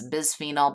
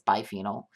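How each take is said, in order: First: The word begins with the syllable 'bis'. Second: The word begins with the syllable 'bi'. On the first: The speaker calls it wrong. "sometimes you'll hear it said" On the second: The speaker calls it right. "the proper pronunciation"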